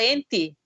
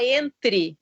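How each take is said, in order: First: "ente" said with no R after the T; R left out. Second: Said in the usual way. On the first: Retold or imitated. Parent shows therapist son's speech problem, "ente" without the R. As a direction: imitate a child dropping the R: "ente". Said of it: "ele tem dificuldade de falar o R". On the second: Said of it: "A palavra entre, ele fala ente".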